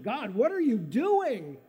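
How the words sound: It is said with a tone of astonishment.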